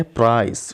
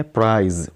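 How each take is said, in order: First: प्राइस ending in an unvoiced "sss"; final S sound. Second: प्राइज ending in a buzzed "zzz"; final Z sound. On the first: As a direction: end प्राइस on a crisp S, never a Z. (प्राइس کے آخر میں سین کی آواز) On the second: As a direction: end प्राइज on a Z, never an S. (प्राइज کے آخر میں زے کی آواز) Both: Shown as a demonstration. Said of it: "ये बहुत सारे लोग गलती करते हैं".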